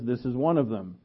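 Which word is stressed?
none. It is read without special stress on is.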